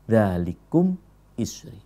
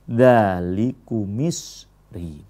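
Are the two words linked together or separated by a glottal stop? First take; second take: separated; linked. First: A glottal stop separates the two words. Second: The two words run together without a break. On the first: The speaker calls it right. "hamzahnya hamzah kotok ya, bukan hamzah wasol" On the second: The speaker calls it wrong. "bukan dzalikumisri"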